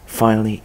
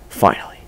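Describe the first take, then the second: First: Said in the usual way. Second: Breathless whispered word. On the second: Acted. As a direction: breathe it out in relief. Repeats word under his breath.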